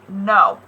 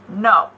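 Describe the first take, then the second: First: It is said with a low pitch. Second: The same.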